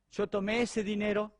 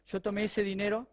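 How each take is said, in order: Both takes have the same delivery.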